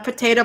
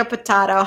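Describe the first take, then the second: First: "potato" said po-TAY-to. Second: "potato" said po-TAH-to. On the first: Reader waves off pronunciation differences, "potato" as po-TAY-to. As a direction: say "potato" with a long AY in the middle. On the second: Reader waves off pronunciation differences, "potato" as po-TAH-to. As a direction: say "potato" with an open AH in the middle. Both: Shown as a demonstration.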